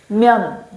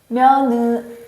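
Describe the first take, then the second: First: The word is said as one closed syllable. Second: The final n is released as an extra syllable. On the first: The speaker calls it right. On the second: The speaker calls it wrong.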